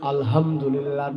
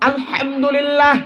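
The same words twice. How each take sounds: First: The h is a light, plain breathy h. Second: The h is pressed, harsh and from the throat. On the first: The speaker calls it wrong. "হায়ের জাকাত হা পড়ছেন" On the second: The speaker calls it right. "এখানে হার মধ্যে একটু চাপ দিয়ে উচ্চারণ করতে হয়"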